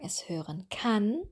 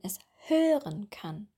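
First: The stress falls on the word kann. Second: The stress falls on the word hören. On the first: The speaker calls it wrong. "Wir würden nicht sagen" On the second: The speaker calls it right. "Das Hauptverb betonen wir, nicht das Hilfsverb"

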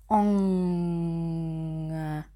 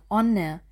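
First: The consonant is a slow, smooth ng. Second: The consonant is a plain n. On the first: The speaker calls it right. "so langsam wie möglich, also im Zeitlupentempo" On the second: The speaker calls it wrong. "Wenn ihr onne sagt"

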